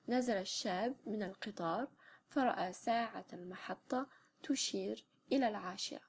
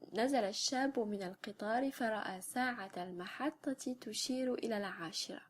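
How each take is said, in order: First: Final case vowels are dropped from the words. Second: Final case vowels are pronounced on the words. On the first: It is how people say it in everyday life. "sans les voyelles euh, casuelles" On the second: It belongs to a formal or literary register. "phrase donc avec les voyelles euh, de déclinaison, avec les voyelles casuelles"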